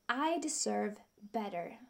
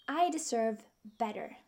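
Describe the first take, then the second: No difference in how they are said.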